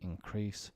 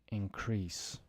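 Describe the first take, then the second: First: The stress is on the second syllable. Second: The stress is on the first syllable. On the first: It is used as a verb. "to increase" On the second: It is used as a noun. "think of it now as nouns"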